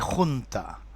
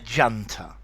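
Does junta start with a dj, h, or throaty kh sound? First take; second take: kh sound; dj sound. First: It starts with a throaty kh sound. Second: It starts with a dj sound. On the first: This is the original Spanish pronunciation. "Although this is a Spanish word, and I would like to say junta" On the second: This is the British English pronunciation. "to me in English, a junta"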